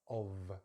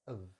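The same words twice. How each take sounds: First: The vowel is full, ending in a v sound. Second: The vowel is a reduced schwa before v. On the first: "it's actually a V" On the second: "change the O into a, into a schwa sound"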